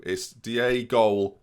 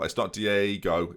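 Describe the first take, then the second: First: "Diego" sung slowly with a swinging chant rhythm; chanted, "Diego" stretched rhythmically, sing-song; rhythmic chant. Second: "Diego" said in even syllables, slow; "Diego" spoken syllable by syllable, no swing; wrong rhythm. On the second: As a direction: chop "Diego" into flat equal syllables. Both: Shown as a demonstration. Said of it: "Not syllable, Ben. Just rhythmically".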